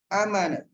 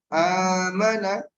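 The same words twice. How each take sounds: First: The first vowel is kept short. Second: The first vowel is held long. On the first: "Ini kenapa pendek? Karena di atas a, alif" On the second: "Ini kenapa panjang? Karena setelahnya a, alif"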